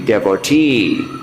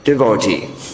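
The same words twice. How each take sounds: First: The stress is not on the second syllable. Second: The stress is on the second syllable. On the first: It follows the grammar. "the proper pronunciation according to the grammar" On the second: It follows a revered teacher's usage. "Second syllable stressed"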